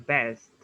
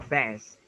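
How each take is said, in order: Both takes have the same delivery.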